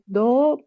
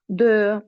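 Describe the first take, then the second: First: The vowel is an O sound. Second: The vowel is a rounded E sound. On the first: The speaker calls it wrong. "pas do" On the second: The speaker calls it right. "donner cette forme pour ce son E"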